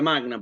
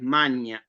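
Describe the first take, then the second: First: The g and n are pronounced separately. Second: The gn is pronounced as one ñ sound. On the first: This is the classical Latin pronunciation. "como pronunciación clásica" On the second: This is the Italian ecclesiastical pronunciation. "en la pronunciación italiana, eh, en la romana, en la eclesiástica, es magna"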